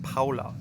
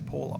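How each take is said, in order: First: The name is said with a German accent. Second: The name is said with an Australian accent.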